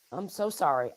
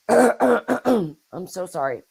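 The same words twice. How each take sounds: First: Hoarse, fading voice; strained raspy voice; raspy whisper. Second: Hoarse voice after clearing throat; hoarse and slow apology; raspy whisper. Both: Real, not acted. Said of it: "I'm losing my voice".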